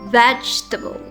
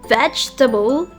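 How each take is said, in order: First: The word is said with three syllables. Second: The word is said with three syllables.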